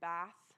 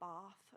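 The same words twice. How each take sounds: First: Bath is said with an American flat a vowel. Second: Bath is said with a British broad a vowel.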